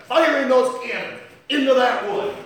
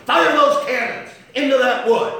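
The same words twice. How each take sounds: First: Louder and higher, hammering FIRING; a rising pulpit cry; loud preaching. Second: Even louder, higher, FIRE hit hard; a pulpit shout topping the first; louder preaching repeat. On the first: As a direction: drive the cannons home. First take of cannon line. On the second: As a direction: slam the repeat harder. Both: Acted.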